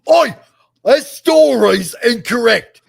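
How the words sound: It is said in a put-on Cockney accent.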